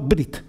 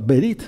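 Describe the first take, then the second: First: The B runs straight into the R. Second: A very short vowel separates B and R. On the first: The speaker calls it wrong. "no brit" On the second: The speaker calls it right. "sino berit, ¿eh? Con un sonido de muy corto"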